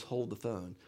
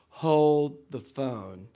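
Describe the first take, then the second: First: Said in the usual way. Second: Drawn-out catchphrase. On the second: Retold or imitated. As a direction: HOLD THE PHONE stretched very slow and loud. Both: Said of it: "one of his sayings was".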